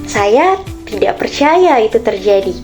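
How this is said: The sentence is said in a happy tone.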